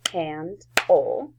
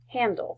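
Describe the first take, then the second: First: "handle" as hand, pause, ul; split into syllables. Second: Said in the usual way. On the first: Shown as a demonstration. Teacher counting syllables for the class, "handle" split as hand... ul. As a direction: give "handle" two separate beats. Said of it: "handle has two syllables". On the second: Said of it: "that is a".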